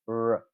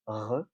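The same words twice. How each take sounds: First: The r is smooth, with no friction or trill. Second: The r is a rasping sound at the back. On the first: "it sounds like this, r, r, and uh, that's called an alveolar approximant" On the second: "the French R, which is a velar fricative"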